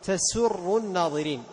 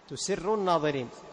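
First: The first word is said as tasurru. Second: The first word is said as tusirru. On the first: It means pleasing the onlookers. The speaker calls it right. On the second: It means keeping secrets from the onlookers. The speaker calls it wrong.

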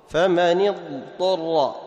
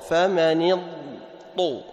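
No difference in how they are said.

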